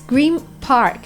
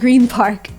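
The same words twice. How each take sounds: First: Green ends with an M sound before Park. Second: Green ends with a clear N sound. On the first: The speaker calls it right. "It's Green Park" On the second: The speaker calls it wrong. "It's not Green Park, the way it's pronounced"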